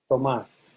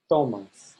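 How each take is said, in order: First: "Tomás" with the weight on MÁS; stress on last syllable. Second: TO punched in "Tomás", as in the verb tomas; stress on first syllable. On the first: Teacher has students compare the name, MÁS stressed in "Tomás". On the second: Teacher compares verb with name, TO stressed in "Tomás". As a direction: hit TO in "Tomás", let the end fall. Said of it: "You can compare with Tomás". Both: Shown as a demonstration.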